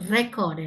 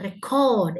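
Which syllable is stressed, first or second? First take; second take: first; second. First: The stress is on the first syllable. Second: The stress is on the second syllable. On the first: The word is used as a noun. "நவுனாக இருந்தா நம்ம முதல் பாதியை வந்து stress பண்ணணும்" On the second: The word is used as a verb. "வேர்பாக இருந்தா ரெண்டாவது பாதியை stress பண்ணணும்"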